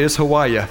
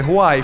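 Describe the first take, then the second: First: Hawaii said as ho-WAH-uh, Georgia style. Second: Hawaii said as huh-WHY-ee; standard Hawaii. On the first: Retold or imitated. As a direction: say Hawaii ending in a flat uh, hoh-WAH-uh. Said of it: "If you're from Georgia". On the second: Shown as a demonstration. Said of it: "Hawaii for the rest of us".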